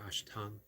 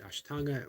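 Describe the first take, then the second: First: The word ends without a final vowel. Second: The word ends with a final a vowel. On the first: It is said this way in other parts of India. "or Ashtang" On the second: It is said this way in some parts of India. "Depending on what part of India you found, you either pronounce it Ashtanga"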